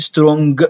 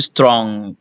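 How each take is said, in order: First: The final g is clearly released. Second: The word ends on ng, g held back. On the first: The speaker calls it wrong. "ما تقولش strong لا" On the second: The speaker calls it right. "احبس هوا الجي، قول strong كأن اخر حرف عندك الان"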